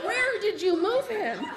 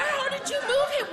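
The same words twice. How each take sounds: First: Slower, laughing, still high; slowed disbelief. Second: Much higher, laughing outburst; incredulous question. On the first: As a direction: draw the question out, stunned. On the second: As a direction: squeak it out in shock. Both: Retold or imitated. Shocked reply to grandma's news.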